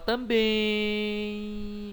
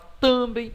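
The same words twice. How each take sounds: First: The stress is on the last syllable. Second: The stress is on the first syllable. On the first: The speaker calls it right. "É a última. Você fala" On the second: The speaker calls it wrong. "Você não fala"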